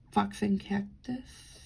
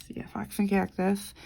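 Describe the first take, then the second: First: Whispered name. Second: Said in the usual way. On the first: Real, not acted. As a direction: whisper Fox and Cactus under the breath. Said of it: "rereads brand name in whisper". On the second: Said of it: "repeats the name aloud".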